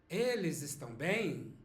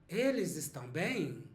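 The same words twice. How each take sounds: Both takes have the same delivery.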